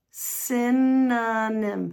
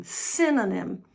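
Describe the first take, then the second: First: "Synonym" stretched into SIN, uh, nim; slow syllable breakdown. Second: Said in the usual way. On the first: Shown as a demonstration. Teacher demonstrating to learners, "Synonym" very slowly broken up. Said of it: "the words slowly". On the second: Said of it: "practice the word at normal speed".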